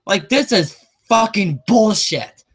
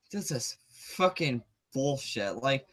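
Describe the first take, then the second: First: Indignant rant, a bit raised; fed-up rant; angry outburst. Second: Much softer, slow and low; drained after the sigh, mutter it; exhausted mutter of disgust; defeated mutter. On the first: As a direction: vent your outrage at the theater chain. Angry rant about ticket prices. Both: Real, not acted.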